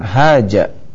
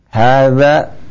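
First: The middle consonant is a 'j' sound. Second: The middle consonant is a soft 'th' sound. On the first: The speaker calls it wrong. "bukan haja ya" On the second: The speaker calls it right. "Hadza ya"

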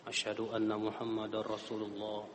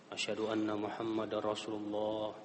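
No difference in how they are said.

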